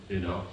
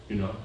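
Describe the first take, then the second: No difference in how they are said.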